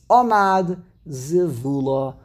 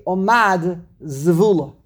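First: "Omad Zivula" with stress on O, then VU; stress moved back. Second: "Omad Zivula" with stresses crowded on MAD and VU. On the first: Teacher showing the corrected reading, "Omad Zivula" stressed O and VU. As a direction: lean on the first syllable of "Omad", middle of "Zivula". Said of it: "push it back further to the Ayin". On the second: Teacher showing the uncomfortable clash, "Omad Zivula" stressed MAD then VU. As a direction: lean on the last syllable of "Omad", then VU in "Zivula". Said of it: "putting the emphasis on the Mad". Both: Shown as a demonstration.

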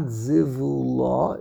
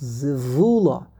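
First: Zivula with the stress on final LA, rising; wrong end stress. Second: Zivula with VU stressed, la falling away; corrected early stress. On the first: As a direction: slowly lean on the last syllable LA of zivula. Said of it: "It's not zivula". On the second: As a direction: slowly punch the VU in zivula. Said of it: "emphasis is on the beginning of the word". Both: Shown as a demonstration.

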